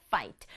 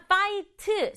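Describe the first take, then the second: First: "fight" in a single syllable, no vowel after the t; one-beat pronunciation. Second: "fight" split into three beats, with an added final vowel after t; wrong three-beat pronunciation. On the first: Teacher shows pupils the correct fight, in one beat. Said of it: "한 박자로". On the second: Teacher shows pupils how fight should not sound, in three beats. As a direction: say "fight" Korean-style as three separate syllables. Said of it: "세 박자 아니에요". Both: Shown as a demonstration.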